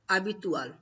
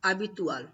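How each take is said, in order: First: It is pronounced with Spanish sounds and stress. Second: The same.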